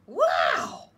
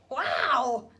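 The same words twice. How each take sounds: First: Big loud wow of wonder; thrilled slug seeing snails; amazed shout. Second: Loud happy wow; thrilled wow. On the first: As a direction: gasp it out loud like a wide-eyed kid. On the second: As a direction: beam with delight. Norman thrilled after fall. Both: Acted.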